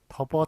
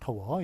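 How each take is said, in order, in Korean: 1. 두 번째 음절은 b 소리로 시작해요. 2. 두 번째 음절은 w 소리로 시작해요. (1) "경상도에서는 더버라고 발음합니다" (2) "더워가 맞죠"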